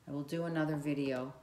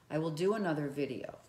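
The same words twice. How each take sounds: The two takes are said the same way.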